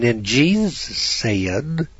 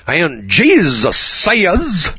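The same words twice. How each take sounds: First: Mock thin pulpit voice, higher and very slow; squeaky little preacher. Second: Much higher, louder, very slow revival preacher; forceful Billy Graham. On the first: Mocking a weak pulpit preacher, squeaky and slow. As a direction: drag it out like a timid preacher. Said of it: "you hear some little squeaky voice". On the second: Retold or imitated. Mocking Billy Graham's forceful pulpit delivery, high and loud. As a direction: boom it out like a stadium evangelist. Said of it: "Billy Graham, he's a little more forceful".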